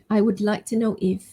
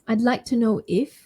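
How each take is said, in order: First: It begins with the full form "I would". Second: It begins with the short form "I'd".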